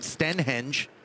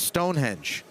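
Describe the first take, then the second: First: The first syllable is a short 'sten'. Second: The first syllable is a full 'stone'. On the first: The speaker calls it wrong. "I don't call it Stenhenge" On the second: The speaker calls it right. "It's Stonehenge"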